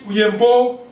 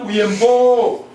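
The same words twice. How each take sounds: First: The final vowel is cut short. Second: The final vowel is drawn out long.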